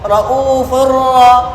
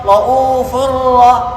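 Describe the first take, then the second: The two takes are said the same way.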